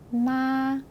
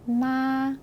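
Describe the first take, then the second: First: The pitch stays high and long throughout. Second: The same.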